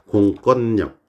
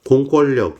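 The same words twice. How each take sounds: First: The last syllable begins with an n sound. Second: The last syllable begins with an l sound. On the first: The speaker calls it right. "리을이 니은으로 교체되고 있죠" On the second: The speaker calls it wrong. "그 틀린 발음입니다"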